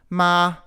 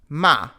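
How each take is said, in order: First: The pitch stays high and level. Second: The pitch drops sharply from high to low. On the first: "the high tone" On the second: "the falling tone"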